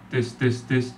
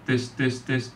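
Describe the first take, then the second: No difference in how they are said.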